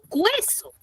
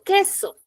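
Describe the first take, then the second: First: The u is sounded as a w sound. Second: The u is silent, with no w sound. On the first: The speaker calls it wrong. "Yo no digo cueso" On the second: The speaker calls it right. "Lo mismo cuando yo digo queso"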